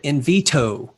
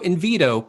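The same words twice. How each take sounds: First: It is said with a clear T middle sound. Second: It is said quickly with a D-like middle sound. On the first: "it's got two T's in it" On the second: "quickly, which kind of sounds like a D"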